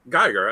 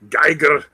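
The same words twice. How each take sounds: First: It is said in the speaker's ordinary accent. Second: It is said in an imitated, put-on foreign accent. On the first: The speaker calls it wrong. "That's what I said" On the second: The speaker calls it right. "say it like like Arnold"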